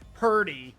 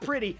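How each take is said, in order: First: The word is said in a thick regional accent. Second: The word is said plainly, with no strong accent. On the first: "that accent is thick to say purty" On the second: "Not pretty"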